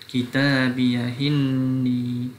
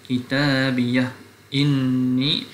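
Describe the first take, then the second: First: The h runs straight into the next vowel. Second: A glottal stop separates the two words. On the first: "Kalau naqal, wajah kedua" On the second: "Yang pertama yang asah adalah tidak naqal"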